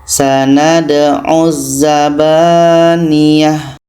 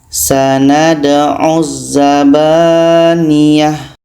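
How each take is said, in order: The two takes are said the same way.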